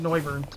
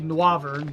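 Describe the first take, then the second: First: The name is pronounced in an English-sounding way. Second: The name is pronounced in a French-sounding way. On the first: This is how many people commonly say it. "a lot of people call it Noivern" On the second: This is probably how it was intended. "pronouncing it the like in a the French way that it's probably intended"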